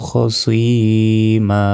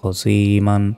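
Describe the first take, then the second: First: The word ends on a long vowel. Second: The word ends with an n sound. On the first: The reading stops at this word. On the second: The reading continues without stopping.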